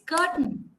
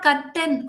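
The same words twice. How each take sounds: First: The final n is syllabic, with no vowel. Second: A full vowel is said before the final n. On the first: The speaker calls it right. "Okay, it's curtain" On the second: The speaker calls it wrong. "It is not curtain"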